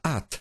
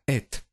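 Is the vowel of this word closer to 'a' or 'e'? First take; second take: a; e. First: The vowel is an a sound. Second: The vowel is an e sound. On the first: This may be how it was pronounced in the past. "Puede ser que en el pasado se pronunciaba At" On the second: This is how it is pronounced today. "se pronuncia hoy en día Et"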